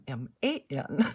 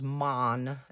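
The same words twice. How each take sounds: First: The vowel sounds like 'man'. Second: The vowel sounds like 'mon'. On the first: The speaker calls it wrong. "not man as in M-A-N" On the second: The speaker calls it right. "man as in M-O-N"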